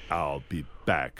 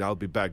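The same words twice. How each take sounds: First: Low, slow, deliberate line; movie catchphrase delivery. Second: Said in the usual way. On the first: Shown as a demonstration. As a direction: drop low and stretch it out like the film. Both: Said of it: "the way you say it in the movie".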